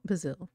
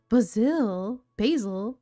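First: Said in the usual way. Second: Basil said fancy, as "BAH-zil", rising; fancy pronunciation. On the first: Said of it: "I know how to say basil". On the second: Shown as a demonstration. Reading the pet's name in a put-on fancy way. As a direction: put on a posh twist for "Basil". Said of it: "Me trying to be fancy".

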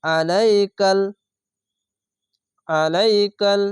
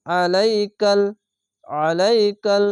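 First: আলাইকাল with a plain light আ; আলাইকাল read wrongly, light ain. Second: আলাইকাল with a heavy ain squeezed from the throat; আলাইকাল with a full heavy ain. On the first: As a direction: say আলাইকাল plainly, not throaty. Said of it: "আলাইকাল এভাবে পড়তে হবে না". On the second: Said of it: "গলা চিপে পড়তে হবে". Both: Shown as a demonstration.

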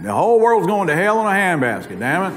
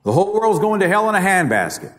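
First: Oklahoma accent. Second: Said in the usual way. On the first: Shown as a demonstration. Speaker showing how Oklahomans say it, Oklahoma accent. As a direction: say it like folks back in Oklahoma, a touch country. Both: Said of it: "except we say it with an accent".

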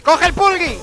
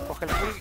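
First: Loud, high yell of urgency; shouted, high-pitched urge; shouted urging. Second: Breathy whisper to himself; whispered self-urging. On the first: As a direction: yell it at yourself, desperate. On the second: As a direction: hiss it under your breath. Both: Real, not acted. Urging himself to grab item.

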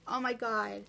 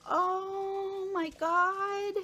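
First: Said in the usual way. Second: High, very slow oh my God; delighted gasp. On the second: Real, not acted. Unwrapping a friend's gift, drawn-out amazed exclamation. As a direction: stretch it out in delighted surprise. Opening a gift, first reaction.

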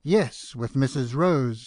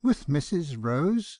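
First: Firm, stern confirmation with falling end; emphatic stern reply. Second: Slow, incredulous question with rising end; on the edge of a laugh, drawn out; almost laughing. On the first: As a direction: confirm it sternly, no doubt allowed. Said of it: "said he, sternly". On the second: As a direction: echo it in amused disbelief. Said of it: "said I, almost laughing". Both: A narrator's reading.

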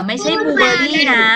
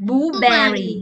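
First: "blueberry" ending in -li, the wrong way. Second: "blueberry" with a clear -bery, slower; correct reading. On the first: Teacher shows pupils the wrong "blueberry" with -li. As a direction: show the mistaken "blueberry" with -li. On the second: Teacher stresses the right ending to pupils. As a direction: model the right "blueberry" slowly. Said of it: "แบร์นะ". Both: Shown as a demonstration.

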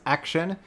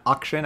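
First: "action" with a short a as in cat; corrected pronunciation. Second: "auction" opening with an "awk" sound; rejected pronunciation. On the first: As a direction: open "action" with the front vowel of "cat". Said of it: "it's pronounced action". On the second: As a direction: say "auction" with a back, open first vowel. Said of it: "not auction". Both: Shown as a demonstration.

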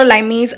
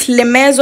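First: "Limes" said as LYE-meez; long "eye" first, ending in "meez" in "Limes"; alternative pronunciation. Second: "Limes" said as lih-MEZ; short i first, ending in "mez" in "Limes"; tentative pronunciation. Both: Shown as a demonstration. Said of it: "I don't know how to pronounce it".

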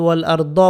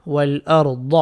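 First: "দ" as a light, ordinary d; wrong Dal sound. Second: "দ" as a heavy Arabic Dad; emphatic, full "দ" ending "ওয়াইল আর দ"; correct Dad sound. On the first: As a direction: say "ওয়াল আর দ" quickly with a thin dental "দ". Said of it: "বলা যাবে না". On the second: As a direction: say "ওয়াইল আর দ" with tongue side pressed for a thick "দ". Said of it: "দদের উচ্চারণ ঠিক করে নেবেন". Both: Shown as a demonstration.

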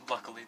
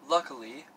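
First: Said in the usual way. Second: "luckily," lifted at the end, a bit louder; odd-sounding "luckily". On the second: Real, not acted. Vlogger stumbling on a word, "luckily," oddly lifted. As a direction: say "luckily," oddly, with a rising finish. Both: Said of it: "that, that sounded weird".

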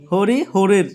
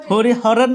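First: "হরিহরের" with closed o in hor; correct pronunciation. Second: "হরিহরের" with open aw in hor; mistaken pronunciation. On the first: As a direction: say "হরিহরের" as hori-ho-rir. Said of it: "উচ্চারণটা দেখো". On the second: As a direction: say "হরিহরের" as hori-haw-rer. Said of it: "ন কিন্তু". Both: Shown as a demonstration.

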